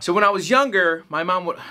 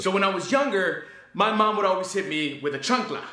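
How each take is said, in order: First: Lightly voiced stand-up comic, a little forceful; Carlos Mencia attempt. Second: Put-on stand-up stage voice; Carlos Mencia impression. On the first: Reviewer tries a comic's joke, lightly put-on stand-up voice. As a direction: launch into a joke, barely in character. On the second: Reviewer performs his written joke to an audience, mock stand-up delivery. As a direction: work the room with a childhood joke setup. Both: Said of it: "my best attempt at Mencia".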